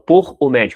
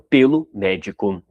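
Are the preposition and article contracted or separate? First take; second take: separate; contracted. First: The preposition and article are said as separate words. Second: The preposition and article merge into one word. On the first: The speaker calls it wrong. "eu falo por o médico, não" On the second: The speaker calls it right.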